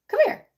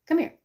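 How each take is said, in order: First: Squeaky high call to the dog; pitched-up pet call. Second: Said in the usual way. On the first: Real, not acted. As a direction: call him sweetly, way up. Calling the dog.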